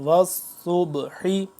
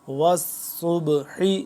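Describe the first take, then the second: Both takes have the same delivery.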